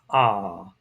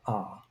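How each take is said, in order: First: The vowel is held for a longer time. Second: The vowel is held only briefly. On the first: "long alpha" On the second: "short alpha"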